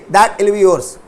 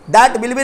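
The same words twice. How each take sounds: First: "that will" joined without the w; contracted that'll. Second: Said in the usual way. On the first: Shown as a demonstration. Teacher corrects the full form for students, contracted "that will". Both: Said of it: "that will be नहीं".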